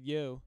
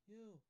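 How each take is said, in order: First: Said in the usual way. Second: Very quiet, higher-pitched yo; said off-mic. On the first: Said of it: "but I just said". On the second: Shown as a demonstration. Host shows co-hosts a secret remark off the mic, barely audible. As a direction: sneak it out away from the microphone. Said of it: "when you're not talking into the microphone".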